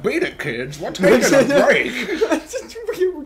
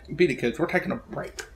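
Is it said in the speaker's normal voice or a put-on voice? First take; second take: put-on voice; normal voice. First: It is said in a put-on character voice. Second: It is said in the speaker's normal voice.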